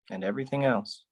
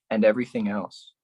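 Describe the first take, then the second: First: "everything" dropped softer; softer echo. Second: Said in the usual way. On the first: Acted. Poet echoing the line softly. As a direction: let "And everything else" fall away quietly. Repeated line, second take.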